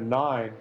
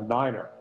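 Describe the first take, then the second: First: The word is said with one syllable. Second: The word is said with two syllables. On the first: "Instead of nine" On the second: "it's uh, niner"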